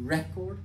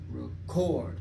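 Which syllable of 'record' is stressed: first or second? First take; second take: first; second. First: The stress is on the first syllable. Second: The stress is on the second syllable. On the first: It is a noun meaning a CD or a recording. "j'accentue sur la première syllabe" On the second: It is a verb meaning to record. "sur la deuxième syllabe"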